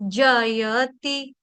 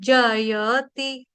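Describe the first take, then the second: First: All three syllables are said, with a clear 'ya'. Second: All three syllables are said, with a clear 'ya'.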